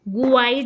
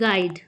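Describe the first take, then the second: First: A u sound is pronounced after the g. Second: The g runs straight into the vowel. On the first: The speaker calls it wrong. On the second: The speaker calls it right.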